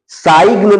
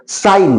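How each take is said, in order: First: साइग्न as "saig-na", long vowel glide and hard G; wrong sounded G. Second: साइन as "sain", with no G sound; silent G. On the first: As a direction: keep the G audible in साइग्न. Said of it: "साइग्न नहीं बोलेंगे". (साइग्न में ग का गलत उच्चारण करते हुए) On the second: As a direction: glide straight from "sai" to N in साइन. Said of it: "जी यहां पर साइलेंट हो जाएगा". (साइन में जी साइलेंट रखकर) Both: Shown as a demonstration.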